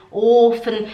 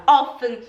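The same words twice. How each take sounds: First: "offen" with a long, closed o; first vowel version. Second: "offen" with a short o; students' mistake. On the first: Teacher gives the intended word, long-o "offen". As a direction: draw out the o in "offen" like "Ofen". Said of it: "Em vez delas, delas falarem". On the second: Teacher imitates her students' mistake, short-o "offen". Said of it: "elas falam". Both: Shown as a demonstration.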